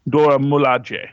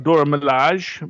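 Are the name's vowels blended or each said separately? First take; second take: separate; blended. First: Each vowel is pronounced separately and clearly. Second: The vowels blend together in a French style. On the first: The speaker calls it right. "you actually are supposed to pronounce each vowel individually" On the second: The speaker calls it wrong. "I always give it a much more French pronunciation"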